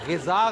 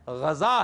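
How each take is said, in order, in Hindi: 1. पहला स्वर 'i' की ध्वनि है। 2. पहला स्वर 'a' की ध्वनि है। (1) "गिजा गलत है, जेर गलतुलाम है" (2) "गजा है। गैन के ऊपर जबर है"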